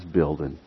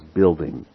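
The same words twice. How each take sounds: First: The final G sound is dropped. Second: The final G sound is pronounced.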